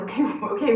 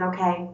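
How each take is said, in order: First: Laughingly imitating her own annoyance; half-laughing, exasperated echo; mock annoyed. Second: Understated calm reply. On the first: Wife echoing husband's calm response, mildly annoyed. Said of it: "which annoyed me at the time". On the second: Retold or imitated. Husband answering the pregnancy news, calm. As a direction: say it evenly, without reaction. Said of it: "he just said very calmly".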